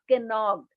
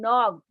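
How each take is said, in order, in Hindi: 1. इस शब्द की शुरुआत एक साफ़ k की आवाज़ से होती है। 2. यह शब्द n से शुरू होता है; k साइलेंट है। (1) "not कैनॉक्ड" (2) "you have to read नॉक"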